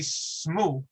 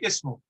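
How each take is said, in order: First: It begins directly with a consonant cluster. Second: It begins with a short vowel before the consonants. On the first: The speaker calls it wrong. "if we were to eliminate the hamzatul wasl here" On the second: The speaker calls it right. "isn't it easier to say ismu?"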